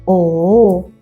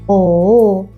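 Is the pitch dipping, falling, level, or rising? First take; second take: dipping; dipping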